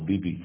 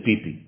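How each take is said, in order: First: The word starts with a b sound. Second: The word starts with a p sound.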